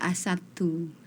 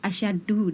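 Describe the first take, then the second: First: It has a plain s sound and a t. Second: It has a sh sound and doubled d. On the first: The speaker calls it wrong. "dibaca asatu seperti itu" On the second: The speaker calls it right. "yang harusnya dibaca asyaddu"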